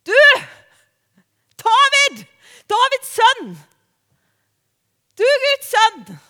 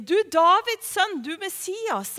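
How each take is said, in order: First: High, loud cry for attention; acted shouting over a noisy crowd; full shout. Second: Milder raised-voice call; half-strength imitation of calling out; retold call. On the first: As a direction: call out at full voice to someone far off. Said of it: "og så roper han". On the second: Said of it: "er egentlig det han sier".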